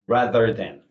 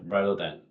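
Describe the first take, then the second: First: The th sounds are clear, tongue pushed out. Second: The th sounds are weak, said with little movement. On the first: The speaker calls it right. "실제 원어민은 많이 내밀어 이렇게" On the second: The speaker calls it wrong. "우리나라 사람이 아주 무표정하게 rather than 이런 거죠"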